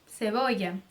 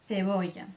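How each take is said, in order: First: The first sound is a plain hissing 's'. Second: The first sound is a 'th' made between teeth. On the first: This is how Latin America says it. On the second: This is how most of Spain says it. "Com a língua entre os dentes"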